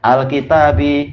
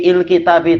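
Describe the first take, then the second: First: The word begins with an 'a' vowel. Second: The word begins with an 'i' vowel. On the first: The speaker calls it right. "pasti fathah" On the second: The speaker calls it wrong. "Kita tidak bilang il"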